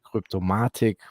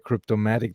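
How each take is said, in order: First: It is said in a German accent. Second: It is said in an American accent. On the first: "the Germans say Cryptomatic" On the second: "That's the American pronunciation"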